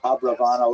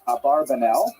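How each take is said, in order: First: The name is said with 'rav' in the middle. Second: The name is said with 'bar' in the middle. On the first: This is the form preferred by scholars. The speaker calls it right. "it's most likely uh, pronounced" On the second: This is the popular form that is easier to rhyme. The speaker calls it wrong. "many people pronounce his name"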